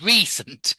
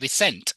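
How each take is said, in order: First: The stress falls on the usual syllable. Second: The stress falls on an unusual syllable. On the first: The speaker calls it right. "instead of recent" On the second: The speaker calls it wrong. "they said recent"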